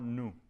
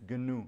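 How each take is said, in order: First: The word begins with an N sound. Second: The word begins with a hard G sound. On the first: The speaker calls it wrong. "It's not nu" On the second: The speaker calls it right. "It's GNU"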